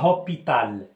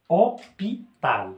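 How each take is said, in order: First: An h sound is heard at the start. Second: No h sound is heard at the start. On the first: The speaker calls it wrong. "Je dis pas hôpital" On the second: The speaker calls it right. "H c'est une lettre muette يعني ما كتقراش"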